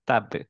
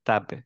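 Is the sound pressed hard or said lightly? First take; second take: light; light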